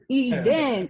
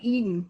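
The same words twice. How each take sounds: First: The two syllables are said clearly and separately. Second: The syllables are run together quickly. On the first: The speaker calls it right. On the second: The speaker calls it wrong. "Some people like to run it together like"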